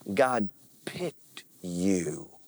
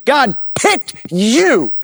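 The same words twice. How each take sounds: First: It is said in a plain, casual way. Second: It is said in a very firm way.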